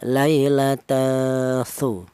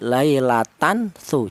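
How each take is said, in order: First: The n sound is hidden and blended. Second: The n sound is pronounced fully and clearly. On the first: The speaker calls it right. "Cara bacanya" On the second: The speaker calls it wrong. "jangan dibaca jelas seperti"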